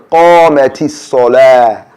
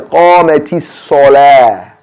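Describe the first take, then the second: Both takes have the same delivery.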